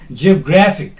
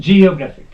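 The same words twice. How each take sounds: First: The stress is on the syllable gra. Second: The stress is not on the syllable gra. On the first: The speaker calls it right. "the stress will be put on second from end and it is gra" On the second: The speaker calls it wrong. "Not geographic. No, that is wrong"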